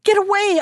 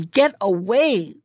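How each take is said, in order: First: High, loud cry to drive him off; frightened cry. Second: Slow, stern Get away, not shouted; mother repeats herself, slow and cold; angry. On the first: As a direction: shout Get away! in horror. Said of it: "she cried". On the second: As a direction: bite out Get away slowly in anger. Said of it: "replied Hannah quite angrily". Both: A narrator's reading.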